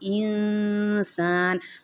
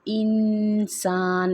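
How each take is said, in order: First: The n is hidden as a nasal sound. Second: The n is pronounced clearly with the tongue. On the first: The speaker calls it right. "नून की आवाज़ को नाक में छुपा के पढ़ा जाएगा" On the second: The speaker calls it wrong. "यहाँ पे इंसान नहीं पढ़ा जाएगा"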